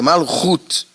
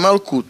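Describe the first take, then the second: First: The middle consonant is a guttural h sound. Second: The middle consonant is a hard k sound. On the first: The speaker calls it right. "na verdade é Malhut" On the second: The speaker calls it wrong. "Malkut é uma forma errada que eles escrevem na internet, é uma forma brasileirada"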